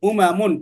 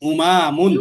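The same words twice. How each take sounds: First: The vowels in the word are kept short. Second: A vowel in the word is drawn out long. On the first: The speaker calls it right. "টান ছাড়া" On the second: The speaker calls it wrong. "তুমি যে টান দিলা"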